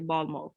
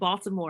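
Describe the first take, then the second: First: The T is dropped or barely pronounced. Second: The T is pronounced hard and clearly. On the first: This is how locals say it. The speaker calls it right. "people from Baltimore say Baltimore" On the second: This is how an outsider says it. The speaker calls it wrong. "pronouncing that T so hard just doesn't feel authentic"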